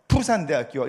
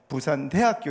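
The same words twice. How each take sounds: First: The stress falls near the start of the word. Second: The stress falls near the end of the word. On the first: It is the Busan way of speaking. "부산은 앞에 강세가 온대요" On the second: It is the Daegu and North Gyeongsang way of speaking. "대구 경북은요 뒤로 악센, 액센트가 온대요"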